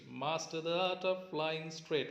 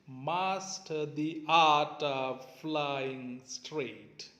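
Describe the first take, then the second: First: The line is read at a faster pace. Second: The line is read at a slower pace.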